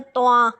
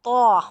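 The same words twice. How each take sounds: First: तोआ with the vowel sliding into a; a sloppy तोआ glide; wrong to-a. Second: तो said loud as a clean single vowel; तो with a full rounded o; तो said cleanly, not drawn into तोआ; correct to. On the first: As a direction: demo of the common mistake तोआ. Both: Shown as a demonstration. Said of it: "ऐसे नहीं पढ़ना".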